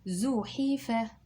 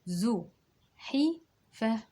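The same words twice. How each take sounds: First: It is said at a normal speed. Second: It is said a little more slowly.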